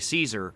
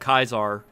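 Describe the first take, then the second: First: The name begins with an S sound. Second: The name begins with a K sound. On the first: This is the later church Latin pronunciation. The speaker calls it wrong. "Why would anybody mispronounce it as Caesar? ... saying Caesar is an outcome of ecclesiastical Latin" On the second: This is how the character himself says it. The speaker calls it right. "if this dude shows up saying, I'm Kaiser"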